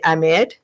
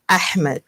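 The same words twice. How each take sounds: First: The h sound in the name is silent. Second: The h sound in the name is pronounced. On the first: The speaker calls it wrong. "Americans say Ahmed, which is I, H is silence" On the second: The speaker calls it right. "H has to be it's not silence"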